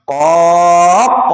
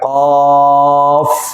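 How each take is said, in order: First: The word ends with a bouncing q sound. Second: The word ends with an f sound. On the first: The speaker calls it wrong. "Jangan mentang-mentang huruf qalqalah lalu qaq katanya" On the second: The speaker calls it right. "Orang qaf belakangnya huruf fa"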